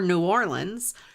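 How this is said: It is said the speaker's home way.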